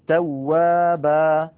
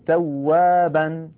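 First: The word ends with a long a vowel. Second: The word ends with an n sound. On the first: The reader stops on the word. "وفي الوقف توابا" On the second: The word is joined to what follows. "في الوصل تكون توابا"

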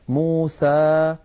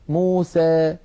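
First: The final vowel is a plain open a. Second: The final vowel leans slightly toward ee. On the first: "فتحا وسطا" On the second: "يخلطون هذا الصوت بشيء من الياء"

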